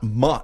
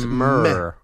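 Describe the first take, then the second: First: The syllable is said with an open "ah" vowel. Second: The syllable is said with an "er" vowel. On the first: The speaker calls it wrong. "it's not ma. It's not M-A" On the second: The speaker calls it right. "It's mer"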